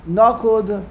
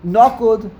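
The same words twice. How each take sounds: The two takes are said the same way.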